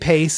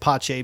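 First: The name is said with an English pronunciation. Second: The name is said with an Italian pronunciation. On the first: "You could say Pace. I'm not going to get upset about" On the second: "I'm going to pronounce it Pace because that's the correct pronunciation"

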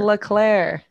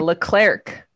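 First: The final C is left silent. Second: The final C is pronounced as a hard K. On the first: The speaker calls it right. "it's Leclerc" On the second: The speaker calls it wrong. "She's always doing a hard C"

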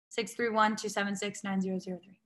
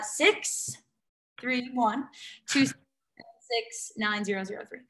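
First: The number is said at a quick pace. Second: The number is said at a slower pace.

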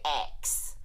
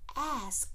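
First: The word sounds like 'axe', with the k before s. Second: The word is said 'ask', with the s before k. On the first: This is the local New Orleans way. "tell us to not say ask" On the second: This is the form outsiders push as correct. "to say ask"

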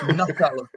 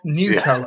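First: The first syllable sounds like nut. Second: The first syllable sounds like newt. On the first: The speaker calls it right. "it's Nutella" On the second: The speaker calls it wrong. "not Nutella"

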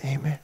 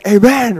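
First: It is said weakly, barely audible. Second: It is said loudly, with energy.

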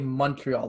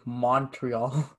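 First: The first vowel sounds like the 'u' in 'un'. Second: The first vowel sounds like the 'o' in 'on'. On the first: The speaker calls it right. "We say Montreal, like if there was a U instead" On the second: The speaker calls it wrong. "I will cringe if anybody says Montreal"

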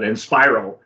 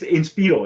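First: The name is pronounced with English-style sounds. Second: The name is pronounced with Spanish sounds. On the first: The speaker calls it wrong. "some people are going to mispronounce it and call it Inspiro" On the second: The speaker calls it right. "It's the Spanish pronunciation"

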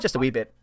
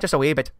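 First: It is said in the speaker's own accent. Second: It is said in a put-on Irish accent. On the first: "on a daily basis, I use the phrase" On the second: "put on my really ... atrocious Irish accent"

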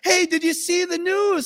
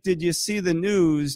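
First: It is said in an excited, happy tone. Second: It is said in a grave, worried tone.

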